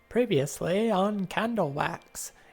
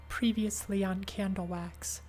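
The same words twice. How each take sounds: First: It is said in a radio announcer voice. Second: It is said without a radio announcer voice. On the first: "radio announcer voice" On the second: "I gotta do a different voice"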